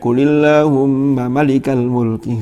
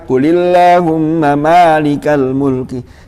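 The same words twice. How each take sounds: First: The first vowel of malik is kept short. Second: The first vowel of malik is held long. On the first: The speaker calls it wrong. "dibaca pendek ... keliru" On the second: The speaker calls it right. "Semuanya membaca"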